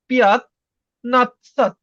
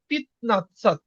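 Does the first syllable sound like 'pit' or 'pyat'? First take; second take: pyat; pit. First: The first syllable is said as 'pyat'. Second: The first syllable is said as 'pit'. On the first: The speaker calls it wrong. "পিয়াত উচ্চারণ হবে না" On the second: The speaker calls it right. "এটা হবে পিত নাৎসাত"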